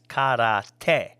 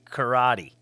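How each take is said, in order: First: The word is said with a Japanese pronunciation. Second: The word is said with an English accent. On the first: This is how it is said in its original language. The speaker calls it right. "It is actually pronounced in Japanese" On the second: It sounds pretentious. The speaker calls it wrong. "pronouncing it with an English accent"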